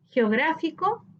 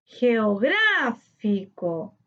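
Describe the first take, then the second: First: Said in the usual way. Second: "Geográfico" very slow, long stressed GRÁ. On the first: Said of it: "separar por sílaba". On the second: Shown as a demonstration. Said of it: "su sílaba tónica en gra". ("Geográfico" muy lento, alargando GRÁ)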